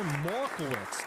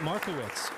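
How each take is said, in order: First: Markowitz with the first r dropped, "Maw-kowitz"; regional pronunciation. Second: Said in the usual way. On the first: Shown as a demonstration. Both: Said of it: "depending on where you're from".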